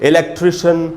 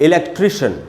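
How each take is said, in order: Both takes have the same delivery.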